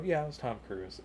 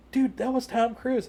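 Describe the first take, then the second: First: Nonchalant, softer reply; unimpressed. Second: High-pitched fanboy disbelief; starstruck amazement. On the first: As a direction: play it cool, no fanboying, voice down. Unimpressed reply, doesn't fanboy over people. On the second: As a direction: imitate an awestruck friend, pitched way up. Starstruck friend versus unimpressed teller. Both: Retold or imitated.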